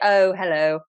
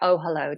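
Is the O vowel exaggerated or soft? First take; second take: exaggerated; soft. First: The O vowel is drawn out and exaggerated. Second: The O vowel is softened and sounds normal. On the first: The speaker calls it wrong. "that's a bit much" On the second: The speaker calls it right. "Pull it back"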